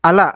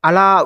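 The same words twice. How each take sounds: First: The final vowel is short. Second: The final vowel is long. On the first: The speaker calls it right. "This is అలా" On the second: The speaker calls it wrong. "Not అలా"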